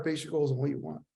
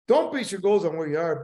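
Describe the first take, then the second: First: Quicker, softer "base your goals on what you want"; softer payoff. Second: "Don't" hit hard and falling; stress on don't. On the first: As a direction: drop the voice and deliver "what you want" as the answer. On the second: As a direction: lean on "Don't" as a warning. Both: Shown as a demonstration. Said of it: "That's really important".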